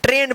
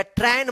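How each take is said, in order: First: "ट्रेन" with a long closed e; AI read as E. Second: "ट्रेन" as tran, open ai vowel; mispronounced TRAIN. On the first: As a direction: say "ट्रेन" as trayn, vowel like pay. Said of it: "दोनों का उच्चारण ए आप करिएगा". ("ट्रेन" को लंबे 'ए' स्वर से बोलें) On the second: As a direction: misread "ट्रेन" to rhyme with ran. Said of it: "ट्रेन मत पढ़िएगा". ("ट्रेन" को खुले 'ऐ' से 'ट्रैन' बोलें) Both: Shown as a demonstration.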